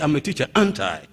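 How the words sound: It sounds like it expects simple agreement.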